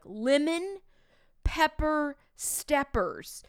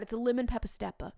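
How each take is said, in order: First: Lemon pepper steppers drawn out very slowly, higher; a student slowing it down, drawn out. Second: Lemon pepper stepper rattled off fast as one word; the teacher showing the real way, quick; quick natural. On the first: Retold or imitated. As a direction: stretch each word as kids mocking slow. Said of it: "They're like". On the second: Shown as a demonstration. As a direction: say it quick and run together. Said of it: "you can't say it like that".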